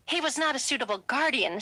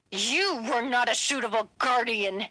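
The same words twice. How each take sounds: First: Said in the usual way. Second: A mild yell, pitch a touch up. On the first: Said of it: "said Ronnie". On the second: A narrator's reading. Son throwing his mother's words back at her, mild yell. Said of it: "yelled Felix".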